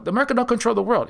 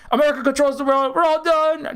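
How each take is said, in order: First: Said in the usual way. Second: Higher mock-despairing pundit, lightly done; high mock despair that the world is lost; mock doom reaction. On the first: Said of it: "that's what they want you to know". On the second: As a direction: parody a panicked doomer. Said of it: "it's a immediate reaction".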